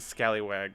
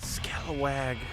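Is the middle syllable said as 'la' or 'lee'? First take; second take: lee; la. First: The middle syllable is said as 'lee'. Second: The middle syllable is said as 'la'. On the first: The speaker calls it wrong. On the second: The speaker calls it right.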